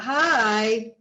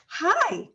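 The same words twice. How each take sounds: First: The greeting sounds flat and unwelcoming. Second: The greeting sounds warm and welcoming. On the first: The speaker seems distant and uninterested. The speaker calls it wrong. "that's not as welcoming" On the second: The speaker seems engaged and connected. The speaker calls it right. "you feel a connection"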